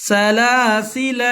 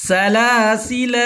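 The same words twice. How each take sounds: Both takes have the same delivery.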